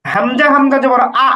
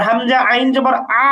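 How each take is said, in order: First: Final আ cut off with a push; abrupt hamza stop. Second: Final আ continuing from the middle of the throat; mid-throat ain. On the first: Teacher contrasting hamza with ain, আ halted abruptly. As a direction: spell হামজা হামজা জবর, then stop আ short in a glottal catch. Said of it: "হামজা হামজা জবর উচ্চারণটা একটু থেমে যাওয়ার মতো". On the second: Teacher contrasting ain with hamza, আ sustained in the throat. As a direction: spell হামজা আইন জবর, then keep আ sounding mid-throat without a stop. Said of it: "গলার মাঝখানে". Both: Shown as a demonstration.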